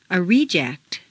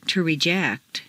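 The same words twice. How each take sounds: First: REject, stressed on the first syllable. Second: ReJECT, stressed on the second syllable. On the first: Teacher models noun "reject", first-syllable stress. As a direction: hit RE in "reject". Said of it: "first syllable for nouns". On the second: Teacher models verb "reject", second-syllable stress. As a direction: hit JECT in "reject". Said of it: "to the second syllable". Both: Shown as a demonstration.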